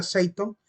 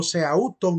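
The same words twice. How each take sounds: First: Seiton with an EI glide, no AU; corrected pronunciation. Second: Seauton with A and U sounded; book spelling. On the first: Teacher showing students how the Greek is pronounced, corrected pronunciation. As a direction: say "seiton" with the vowels merged into E-I. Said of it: "pero se pronuncia seiton". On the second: Teacher quoting the books' variant to students, spelled-out pronunciation. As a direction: say "seauton" as written, au as in Spanish. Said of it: "dicen algunos libros, pero se pronuncia seiton". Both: Shown as a demonstration.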